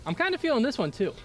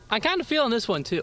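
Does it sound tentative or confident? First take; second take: tentative; confident. First: It sounds tentative and unsure. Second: It sounds confident and sure.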